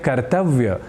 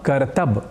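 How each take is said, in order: First: The word ends with a 'vya' sound. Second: The word ends with a short 'b' sound. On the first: The speaker calls it right. "ऐसा ही शुद्ध उच्चारण करना है" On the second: The speaker calls it wrong. "ऐसा प्रयोग हम हिंदी या अन्य प्रादेशिक भाषाओं में कर दिया करते"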